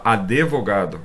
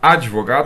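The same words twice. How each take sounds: First: An extra i vowel is inserted after the d. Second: The d goes straight into the v, no extra vowel. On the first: "acréscimo de vogal" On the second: "ao invés de falar advogado"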